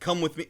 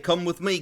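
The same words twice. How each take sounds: First: It is said in the speaker's ordinary accent. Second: It is said in a put-on British accent.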